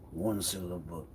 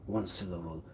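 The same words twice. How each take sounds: The two takes are said the same way.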